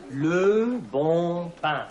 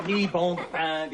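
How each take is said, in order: First: "Le bon pain" very slowly, each word spelled out; correct form. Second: "les bons pains" as the mistake, plural, laughing; wrong form. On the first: French tutor modelling "Le bon pain", very slow and deliberate. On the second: Tutor quoting the pupil's mistake "les bons pains" with a laugh. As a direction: say "les bons pains" as the error being corrected. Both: Shown as a demonstration. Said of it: "Not les bons pains".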